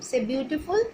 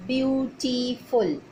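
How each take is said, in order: First: Said in the usual way. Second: Beautiful drawn out slowly, syllable by syllable; teacher stretching beautiful so pupils hear each syllable; slow syllable demo. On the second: Shown as a demonstration. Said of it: "three syllables".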